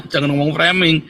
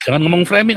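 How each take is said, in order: First: Said in the usual way. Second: Words broken by a real laugh; amused, laughing denial; laughing through words. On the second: Real, not acted. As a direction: laugh as you dismiss the claim. Laughs while denying framing.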